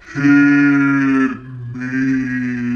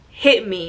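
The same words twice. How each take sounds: First: It is said slowly in a deep voice. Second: It is said in a normal voice.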